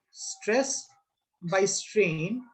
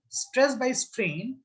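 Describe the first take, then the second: First: "stress" then a pause, then "by strain"; broken into parts. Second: Slow statement. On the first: Teacher to class, chunking the ratio word by word with pauses. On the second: Teacher to students, slowly voicing a student's answer. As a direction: stress by strain drawn out slowly. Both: Shown as a demonstration. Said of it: "Or I can say, "Sir".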